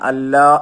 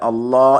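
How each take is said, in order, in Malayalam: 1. L ശബ്ദം ലഘുവും നേർത്തതുമാണ്. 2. L ശബ്ദം കനത്തതും നിറഞ്ഞതുമാണ്. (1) "തർക്കീക്കായിട്ടുമാണ് ഓതേണ്ടത്" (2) "തഫ്ഖീമായിട്ട് ഓതണം"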